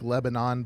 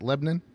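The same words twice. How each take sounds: First: It is said the way it is spelled. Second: It is said with a local Tennessee pronunciation. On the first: This is how the name looks when written. "it looks like Lebanon, but that's not how Tennesseans say it" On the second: This is how locals say the name. "that's the way uh, Tennesseans would pronounce that"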